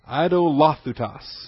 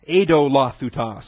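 First: The word does not begin with 'Edo'. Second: The word begins with the sound 'Edo'. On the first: The speaker calls it wrong. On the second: The speaker calls it right.

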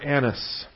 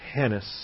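First: The name begins with a vowel sound. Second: The name begins with an h sound.

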